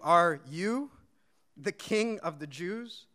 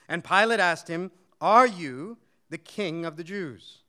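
First: Are you, with you leaned on and a slow gap before the king of the Jews; stress on you. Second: Said in the usual way. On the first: Shown as a demonstration. Preacher showing Pilate's doubt, you leaned on. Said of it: "The emphasis there would have even been on that word "you".

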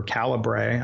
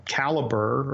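First: "Calibre" with a final -bray syllable. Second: "Calibre" said like "caliber", ending in -ber. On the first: Author offering another guess at the software's name, "Calibre" said as "cali-bray". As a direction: end "Calibre" on "bray", not "ber". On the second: Author unsure of the software's name, "Calibre" said as "caliber". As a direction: pronounce "Calibre" to rhyme with Excalibur. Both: Shown as a demonstration. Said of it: "I don't know how it's pronounced".

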